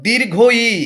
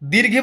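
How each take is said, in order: First: The two words are said separately and fully. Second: The two words are merged into one short word. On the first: The speaker calls it right. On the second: The speaker calls it wrong. "দীর্ঘি বলে কিছু হয় না"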